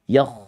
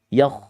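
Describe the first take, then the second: Both takes have the same delivery.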